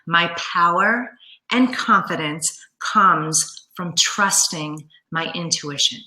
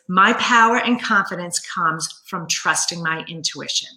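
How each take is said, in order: First: It is said slowly and deliberately. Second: It is said at a normal speed.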